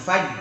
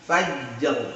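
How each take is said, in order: First: The word ends without an r sound. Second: The word ends with a heavy r sound. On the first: The speaker calls it wrong. "jangan faj, hilang roknya" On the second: The speaker calls it right. "roknya tebal juga"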